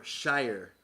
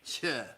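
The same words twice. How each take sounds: First: "shire" said slowly, rhyming with "fire"; full-vowel shire. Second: "Shire" said as a short "shuh"; reduced British shire. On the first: Correcting how the county sounds, "shire" rhyming with fire. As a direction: draw out "shire" with a long i sound. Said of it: "No, it's more shire". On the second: Showing the British county ending, "Shire" as "shuh". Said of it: "sounds more like Cambridgeshire". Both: Shown as a demonstration.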